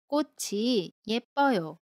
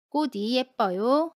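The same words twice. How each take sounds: First: The final consonant links over as a ch sound. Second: The final consonant links over as a d sound. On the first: The speaker calls it right. "로 발음합니다" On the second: The speaker calls it wrong. "아닙니다"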